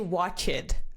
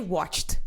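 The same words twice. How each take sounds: First: The word is said with an extra syllable. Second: The word is said as one syllable. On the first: The speaker calls it wrong. "You don't say watched, okay? There is no extra syllable" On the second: The speaker calls it right. "you say watched"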